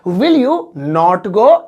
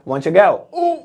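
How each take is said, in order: First: Every word is said separately in full. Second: The words are run together quickly and contracted.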